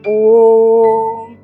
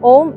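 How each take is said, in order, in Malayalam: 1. ഈ വാക്ക് പതുക്കെ നീട്ടി പറയുന്നു. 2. ഈ വാക്ക് ചെറുതായി വേഗത്തിൽ പറയുന്നു. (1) "റിലാക്സ്ഡ് സ്റ്റേറ്റിൽ ഓം, സോ ഇങ്ങനെ നീട്ടി" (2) "ഓം ഓം എന്നല്ല പറയേണ്ടത്"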